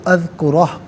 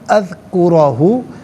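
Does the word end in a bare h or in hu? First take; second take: bare h; hu. First: The word ends with a bare h sound. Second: The word ends with a 'hu' syllable. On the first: The reader stops at this word. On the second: The reader continues without stopping.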